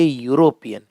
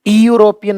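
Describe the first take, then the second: First: The word begins with a 'y' sound. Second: The word begins with a plain vowel sound. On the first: The speaker calls it right. "आप कहेंगे यूरोपियन। ... पहले निकलेगा य" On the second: The speaker calls it wrong. "यूरोपियन नहीं कहेंगे"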